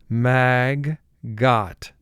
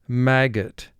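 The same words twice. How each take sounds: First: The second syllable is said fully and separately. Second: The second syllable has a weak, reduced vowel.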